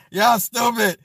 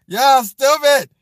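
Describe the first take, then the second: First: Said in the usual way. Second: Louder, slower, stretched playful call-out; drawn-out loud tease. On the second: Real, not acted. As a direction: drag it out teasing the chat. Laughing at chat, said twice.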